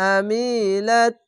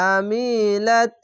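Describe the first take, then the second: The two takes are said the same way.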